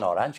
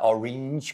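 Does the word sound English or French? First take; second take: French; English. First: The word is pronounced with French-style sounds. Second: The word is pronounced with English-style sounds. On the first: The speaker calls it wrong. "non orange, che è francese" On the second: The speaker calls it right. "così"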